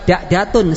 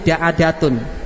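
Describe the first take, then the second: First: No vowel follows the second consonant. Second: An 'a' vowel follows the second consonant. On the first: The speaker calls it wrong. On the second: The speaker calls it right.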